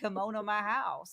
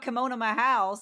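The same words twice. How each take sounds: First: It is said in a Southern American accent. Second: It is said in a plain accent. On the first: "I think of it like" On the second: "When I'm talking about"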